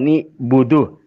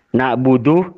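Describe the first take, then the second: First: The first two syllables have 'i' then 'u'. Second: The first two syllables have 'a' then 'u'.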